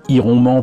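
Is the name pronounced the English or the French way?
French. The name is said with French pronunciation. This is how the speaker said it as a child. "je disais plus volontiers"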